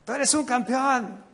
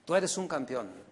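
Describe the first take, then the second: First: Higher, pumped-up pastor chant; preacher mocking a motivational pastor, higher and pumped; hyped motivator, again. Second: Low, quiet, half-hearted campeón; preacher quoting a motivational pastor, low and dry; flat motivator line. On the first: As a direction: push it like a hype man repeating himself. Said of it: "vuelve a decir". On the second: Retold or imitated. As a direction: toss off the slogan under your breath. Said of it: "el pastor se convierte en un motivador".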